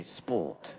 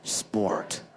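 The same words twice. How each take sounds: First: "sport" with no R sound, British style; British accent. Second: "sport" with a strong American growled R; American accent. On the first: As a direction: drop the R in "sport" like a Brit. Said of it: "Whereas a Brit would say". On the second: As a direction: draw out the R in "sport", American style. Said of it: "You know, sport". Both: Shown as a demonstration.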